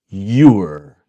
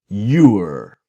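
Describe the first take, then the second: No difference in how they are said.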